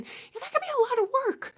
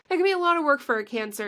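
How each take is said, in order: First: "that could be a lot of work" high, fast and squeaky; squeaky sympathy. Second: Said in the usual way. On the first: Acted. Sympathizing with Cancers, squeaky high and fast.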